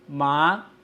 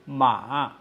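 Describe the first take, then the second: First: The pitch rises from mid to high. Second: The pitch dips down, then rises again. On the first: Numb. "it is a rising tone" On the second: Horse. "It is a falling, then rising tone"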